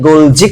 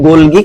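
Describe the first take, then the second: First: The middle consonant is a j sound. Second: The middle consonant is a hard g sound. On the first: "গোলজি করো তাও হবে" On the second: "এটা উচ্চারণ যদি তুমি গোলগি করো তাও হবে"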